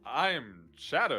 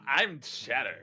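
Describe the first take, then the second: First: It is said in a plain, unaffected voice. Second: It is said in a bratty, Sonic-like voice.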